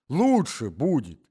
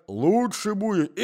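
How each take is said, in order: First: High, slow echo of his own words; old husband repeating himself to wife, high and slow; old man repeating himself. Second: Put-on high, slow old man's advice; drawn out, doddering; forgetful old husband to wife, high and slow. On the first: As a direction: say it again like a muddled old man. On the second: Old man repeats. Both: A narrator's reading.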